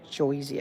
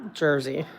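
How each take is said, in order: First: "Jersey" as "Joisey" in a Jersey accent. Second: Said in the usual way. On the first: Shown as a demonstration. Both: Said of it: "It's a Jersey accent".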